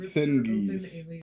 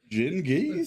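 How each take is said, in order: First: The name begins with an s sound. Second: The name begins with a j sound. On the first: The speaker calls it wrong. "Or is it Sin Geese?" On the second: The speaker calls it right. "Oh, it's Jin"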